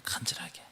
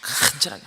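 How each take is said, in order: First: 간절하게 를 숨소리로만 속삭이듯; 간절하게 를 목소리 없이 작게 속삭여; whispered word. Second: Said in the usual way. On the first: Shown as a demonstration. (간절하게 를 속삭임으로) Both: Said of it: "간절하게 기도했다는".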